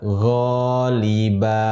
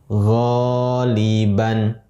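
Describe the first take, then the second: First: The word ends on an open vowel. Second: The word ends with an n sound. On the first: The reader stops on this word. "Ketika wakaf, kita membaca ghaliba" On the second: The reading continues without stopping. "tanwin, fathah, ban, menjadi ghaliban"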